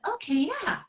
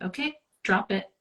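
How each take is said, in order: First: It is said in an excited, playful tone. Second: It is said in a calm, settled tone.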